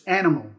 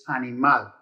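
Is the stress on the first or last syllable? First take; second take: first; last. First: The stress is on the first syllable. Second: The stress is on the last syllable. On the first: This is the English word. "In English, it's animal. You stress the first syllable" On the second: This is the Spanish word. "In Spanish, it's animal. You stress the last syllable"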